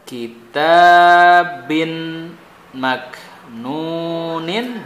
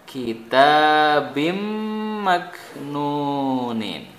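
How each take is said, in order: First: The n sound is clearly pronounced before m. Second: The n sound merges into a doubled m.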